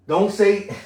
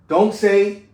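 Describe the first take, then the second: The two takes are said the same way.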